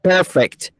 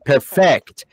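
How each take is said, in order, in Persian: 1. تکیه روی هجای اول است. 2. تکیه روی هجای دوم است. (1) "استرس perfect روی پیه" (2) "نمیگیم perfect"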